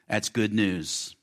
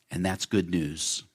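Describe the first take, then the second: First: "good" leaned on, slow, falling to "news"; slow emphatic repeat. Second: Said in the usual way. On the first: Shown as a demonstration. Pastor repeating to the church, slow emphasis on "good". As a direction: let "That's good news" sink in slowly.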